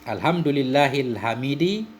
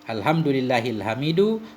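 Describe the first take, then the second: First: The last word ends in an i vowel. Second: The last word ends in a u vowel. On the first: The word describes Allah and follows its case. "majrur tanda jar kasrah" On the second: The word is the predicate of an unstated 'he'. "hamid ini kita rafa'kan mubtada mahdhuf"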